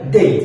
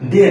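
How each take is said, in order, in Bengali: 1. স্বরধ্বনিটি ee ধ্বনিতে গড়িয়ে যায়। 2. স্বরধ্বনিটি glide ছাড়া সাধারণ থাকে। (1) "এই ওয়াই যদি বাক্যের শেষে থাকে তাহলে এর উচ্চারণ করবেন কি? এই" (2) "ডে না ভাইয়া"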